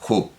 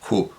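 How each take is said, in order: First: The initial h is strongly aspirated, like J. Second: The same.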